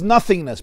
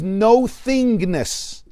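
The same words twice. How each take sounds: First: Said in the usual way. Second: "no thingness" as two slow, separate words; split into NO THINGNESS. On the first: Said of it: "Ayin we translate as nothingness". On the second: Shown as a demonstration. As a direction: stretch "no", then say "thingness" apart. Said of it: "really the word Ayin means no thingness".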